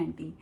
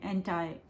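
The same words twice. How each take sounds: First: एंटी ending in "ee"; Indian pronunciation. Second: एंटी ending like "eye"; American pronunciation. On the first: Teacher contrasting accents, एंटी said Indian "AN-tee". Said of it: "हम India में बोलते हैं". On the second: Teacher contrasting accents, एंटी said American "AN-tie". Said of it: "ये same word है". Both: Shown as a demonstration.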